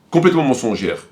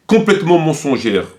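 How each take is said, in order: Both takes have the same delivery.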